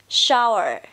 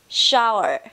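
Both takes have the same delivery.

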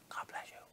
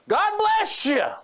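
First: It is said quietly. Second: It is said loudly.

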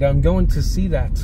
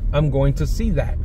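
First: The final T is clearly and crisply released. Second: The final T is soft and barely released. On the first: The line is delivered as acted dialogue. "So you have to pronounce that T" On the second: The line is said as in normal conversation. "In normal conversation, you would know"

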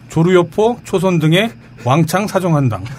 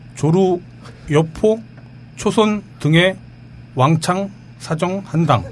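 First: The names are read quickly, run together. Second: The names are read slowly, one by one.

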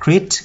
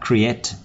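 First: The word is squeezed into a single syllable. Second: The word is said with two clear syllables. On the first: The speaker calls it wrong. "Rất nhiều bạn đọc từ này là create, không phải đâu" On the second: The speaker calls it right. "có hai âm nha"

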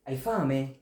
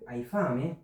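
First: It is said as a plain statement. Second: It is said with question intonation. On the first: The listener is hungry. "তুমি ক্ষুধার্ত" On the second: It asks whether the listener is hungry. "দেখেন প্রশ্ন করে ফেললাম"

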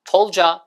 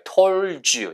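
First: The word 'you' is reduced to 'ya'. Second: The word 'you' is said in full. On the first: The speaker calls it right. "이게 더 부드럽게 told ya" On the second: The speaker calls it wrong. "얘를 told you라고 하는 원어민은 없어요"

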